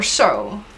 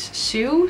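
First: The vowel sounds like the word 'so'. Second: The vowel sounds like the word 'sue'. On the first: The speaker calls it right. "I think it's So" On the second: The speaker calls it wrong. "not Sue"

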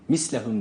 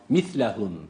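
First: The middle consonant is a sharp s sound. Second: The middle consonant is a soft th sound. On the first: The speaker calls it wrong. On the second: The speaker calls it right.

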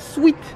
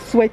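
First: The vowel is a long 'ee' sound. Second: The vowel is a short 'e' sound. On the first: The speaker calls it wrong. "On dit pas sweet" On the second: The speaker calls it right. "quand il y a EA, on dit E, sweat"

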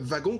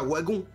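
First: The word begins with a V sound. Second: The word begins with a W sound. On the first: The speaker calls it right. "comme si tu prononçais un V" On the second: The speaker calls it wrong. "Tu dis pas wagon"

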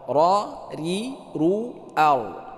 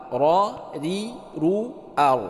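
No difference in how they are said.

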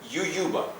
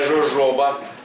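First: The word begins with a y sound. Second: The word begins with a zh sound. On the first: The speaker calls it right. "читається латиною як ююба" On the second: The speaker calls it wrong. "не жожоба, як у нас пишуть"

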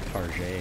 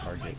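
First: It is said in a fancy, affected way. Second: It is said in a plain, ordinary way.

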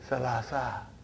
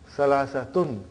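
First: The word ends with a plain 'a' sound. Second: The word ends with a nasal 'tun' sound. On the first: This is the form used when counting aloud. "But in pronunciation we will say salasa" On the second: This is the full grammatical form with tanween. "So that is why you have salasatun"

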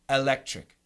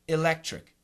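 First: The first vowel is a short e sound. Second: The first vowel is a short i sound. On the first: "you will hear Americans use a short E" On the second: "like a short I"

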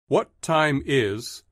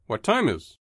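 First: The word 'is' is said as a full syllable. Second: The word 'is' shrinks to an s sound.

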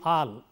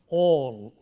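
First: The vowel is said with unrounded lips. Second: The vowel is long with rounded lips. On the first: The speaker calls it wrong. "If you don't round your lips for this, you end up saying" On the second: The speaker calls it right. "The vowel here is a rounded vowel, it's a long vowel"

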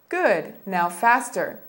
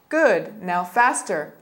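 The two takes are said the same way.

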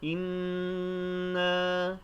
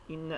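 First: The doubled n is held for a moment. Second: The doubled n is short and passed quickly. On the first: The speaker calls it right. "şeklinde tutarak okuyoruz" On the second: The speaker calls it wrong. "deyip geçmiyoruz"

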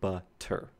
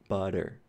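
First: The middle consonant is a clear T sound. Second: The middle consonant is a quick D-like flap. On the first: "if you're a speaker of British English, you will say butter" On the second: "it's just this very brief strike against the roof of your mouth"

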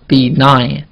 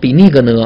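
First: The g in the word is silent. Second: The g in the word is pronounced. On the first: The speaker calls it right. "那个G 没有发音" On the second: The speaker calls it wrong. "不要读成benign 啊，千万别这么读啊"

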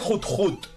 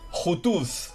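First: The name is one syllable said twice. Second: The name ends with a buzzing z sound. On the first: The speaker calls it right. "Realmente se pronuncia Jut Jut" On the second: The speaker calls it wrong. "Entonces no se dice"

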